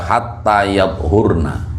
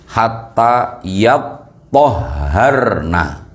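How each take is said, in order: First: The t sound is single, without doubling. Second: The t and h sounds are doubled. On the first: She may be approached once the bleeding has stopped. "toknya sukun" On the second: She may be approached only after she has bathed. "toknya ditasdid, haknya ditasdid"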